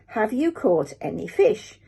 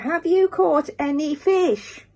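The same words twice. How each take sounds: First: It is said at a quieter level. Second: It is shouted more loudly.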